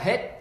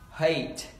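First: The vowel is the Vietnamese e sound. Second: The vowel is the English ay sound. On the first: The speaker calls it wrong. "nó bị nhầm sang một âm, đó là âm e trong tiếng Việt" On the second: The speaker calls it right.

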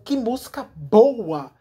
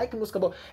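First: It is said with amazement, deeply impressed. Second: It is said casually, like an ordinary remark.

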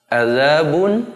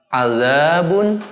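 No difference in how they are said.

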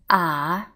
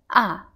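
First: The pitch dips low and slowly comes back up. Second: The pitch falls sharply like a cry of pain. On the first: "the third tone, ah, you will find that it will be very similar to uh-huh in English, but just make it slower" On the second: "the fourth tone, ah, it sounds very painful when you say ouch"

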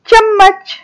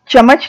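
First: The middle consonant is held with a pause and pressure. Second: The middle consonant is short, without a hold. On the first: The speaker calls it right. "हम हर शब्द में थोड़ा रुककर दबाव डालकर बोल रहे हैं" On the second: The speaker calls it wrong. "चम्मच नहीं"

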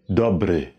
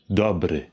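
Both takes have the same delivery.

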